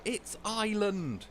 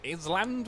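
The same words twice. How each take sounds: First: High, drawn-out exasperated teacher correcting; mock angry correction. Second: "Island" misread as "iz-land", high and questioning; mispronounced word. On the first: Teacher mad at a child misreading, imitated angry correction. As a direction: slowly snap the right word, "EYE-lund", much higher. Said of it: "went mad at me". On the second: Retold or imitated. Child puzzling over a reading book, "Island" read as "iz-land". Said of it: "it had the word island in it".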